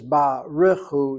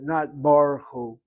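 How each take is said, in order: First: A short vowel is heard after the r. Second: No vowel is heard after the r. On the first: The speaker calls it right. "you read it as barichu" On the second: The speaker calls it wrong.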